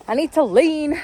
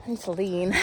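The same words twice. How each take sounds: First: I need to lean said higher and louder; louder repeat. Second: Said in the usual way. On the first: Shown as a demonstration. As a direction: say it again, pitched up and pushed.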